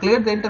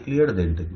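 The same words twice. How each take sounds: First: It is said in a bright, happy voice. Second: It is said in a flat, dull voice. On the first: This is happy news. The speaker calls it right. "It's a happy news" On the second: The news sounds unimportant. The speaker calls it wrong. "You will not say in a very dull voice"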